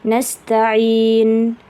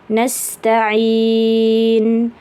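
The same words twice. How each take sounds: First: The vowel before the final n is held briefly. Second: The vowel before the final n is held moderately.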